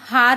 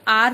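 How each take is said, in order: First: The word begins with an H sound. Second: The word begins directly with a vowel. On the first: The speaker calls it wrong. "हम हार नहीं बोलते" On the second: The speaker calls it right. "आर बोलते हैं"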